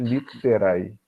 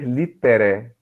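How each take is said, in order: First: The word ends in an ae diphthong. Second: The word ends in a plain e vowel. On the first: "Então a gente lê realmente literae" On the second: "Mas também poderíamos ler litere"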